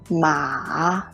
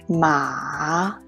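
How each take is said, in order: First: The pitch starts low and then rises. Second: The pitch starts low and then rises.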